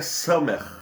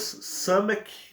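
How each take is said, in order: First: The word ends with a throaty rasping sound. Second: The word ends with a hard k sound. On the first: This is the exact Hebrew way of saying it. The speaker calls it right. "a pronúncia exata, correta é Samer, porque tem um Kaf no final" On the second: This is the Portuguese way of saying it. The speaker calls it wrong. "No português"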